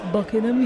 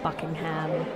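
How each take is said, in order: First: The last syllable is a short, reduced 'um'. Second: The last syllable is a full, clear 'ham'. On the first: The speaker calls it right. "it's Buckingham, you're saying it wrong" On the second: The speaker calls it wrong. "That was what I was pronouncing very literally"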